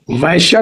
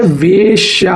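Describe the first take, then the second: First: वैश्या with open 'vai'; wrong 'ai' vowel. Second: वेश्या with a long, slow 'vay'; correct 'e' vowel. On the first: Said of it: "वैश्या नहीं होता है". (वैश्या में 'वै' की ऐ ध्वनि) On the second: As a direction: draw out वेश्या as veee-shyaa. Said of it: "वेश्या होता है". (वेश्या में 'वे' की ए ध्वनि खींचकर) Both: Shown as a demonstration.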